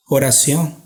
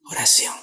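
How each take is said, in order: First: Said in the usual way. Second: Oración repeated in a breathy unvoiced whisper; whispered echo. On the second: Shown as a demonstration.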